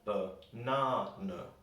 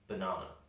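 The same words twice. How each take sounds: First: The stressed syllable is strongly exaggerated. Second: The word is said with ordinary stress. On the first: "I'm putting a lot of stress in the word so you can hear it better" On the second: "we would normally say"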